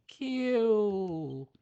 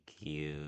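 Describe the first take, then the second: First: "Cute" cooed high and drawn out, falling; cooing "cute". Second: Said in the usual way. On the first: Real, not acted. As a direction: melt over "Cute", up high. Cooing at the fairy.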